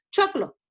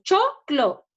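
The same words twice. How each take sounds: First: Said in the usual way. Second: Choclo split as cho, clo with a short pause; syllable by syllable. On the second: Shown as a demonstration. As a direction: give each half of Choclo its own beat. (Choclo separado en sílabas: cho, clo)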